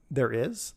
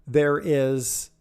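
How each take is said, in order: First: "is" lifted as a question. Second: Said in the usual way. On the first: Real, not acted. Speaker catching their own grammar slip, questioning. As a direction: query the word "is" with a rise. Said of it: "It would be plural". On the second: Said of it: "there is? There are".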